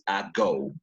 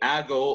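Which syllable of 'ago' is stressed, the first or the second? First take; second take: second; first. First: The stress is on the second syllable. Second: The stress is on the first syllable. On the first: The speaker calls it right. "The stressed syllable is go" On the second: The speaker calls it wrong. "some some people say ago or something like that"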